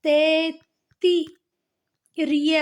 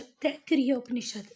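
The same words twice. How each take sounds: First: Slow, broken-up Taittiriya, "tai-tti-ree-ya"; syllable by syllable. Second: Said in the usual way. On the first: Shown as a demonstration. Teacher showing students how it is read, Taittiriya slowly split up. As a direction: sound out Taittiriya in separate stretched syllables. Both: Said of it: "जिसे हम पढ़ते हैं".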